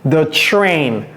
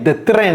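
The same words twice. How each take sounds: First: The 'tr' is said with an English-style r. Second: The 'tr' is said with a French-style r. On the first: The speaker calls it right. "j'ai dit the train. Tr, tr, tr" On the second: The speaker calls it wrong. "J'ai pas dit the train"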